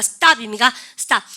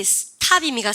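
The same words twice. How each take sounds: First: 스탑 with a hard tense t, louder; tense stop. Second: 스탑 with a breathy aspirated t, shown as the wrong way; 스탑 said with a puff of air after the t; wrong stop. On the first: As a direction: say 스탑 with a tight, unaspirated t. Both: Shown as a demonstration. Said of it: "된소리 내기".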